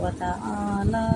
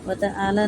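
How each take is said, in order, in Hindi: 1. ta'ala का आखिरी स्वर खींचा जाता है। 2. ta'ala का आखिरी स्वर छोटा है। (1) "इसको थोड़ा खींचेंगे" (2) "व तआला नहीं पढ़ेंगे"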